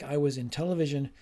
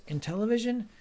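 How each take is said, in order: First: Said in the usual way. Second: "In television" raised high as a question; questioning echo. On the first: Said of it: "the student says". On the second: Acted. Teacher hinting at the student's mistake, "In television" as a high question. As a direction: query "In television" with lifted pitch. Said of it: "And the teacher says".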